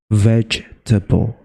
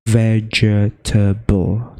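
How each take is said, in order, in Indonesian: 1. Kata ini diucapkan dengan tiga suku kata. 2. Kata ini diucapkan dengan empat suku kata. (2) "bukan vegetable"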